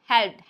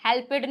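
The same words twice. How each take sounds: First: "हेल्प्ड" in one syllable; correct pronunciation. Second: "हेल्पेड" split as "help-ed"; wrong pronunciation. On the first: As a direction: model "हेल्प्ड" with p running into the final stop. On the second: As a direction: demonstrate the error with a second syllable in "हेल्पेड". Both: Shown as a demonstration. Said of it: "हेल्पेड नहीं होगा".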